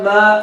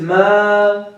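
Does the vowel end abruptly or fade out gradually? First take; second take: abruptly; fades out. First: The vowel is cut off abruptly in the throat. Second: The vowel fades out gradually into the air. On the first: The speaker calls it wrong. "If you end it in the voice box" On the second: The speaker calls it right. "It is Ma"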